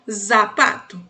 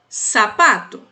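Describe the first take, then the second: First: The word begins with a buzzing z sound. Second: The word begins with a hissing s sound. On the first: The speaker calls it wrong. "e não zapato" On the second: The speaker calls it right. "você falaria sapato"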